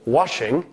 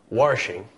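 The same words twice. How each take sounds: First: No extra r sound is added. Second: An extra r sound is added. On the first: "just as washing" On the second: "can sometimes become washing"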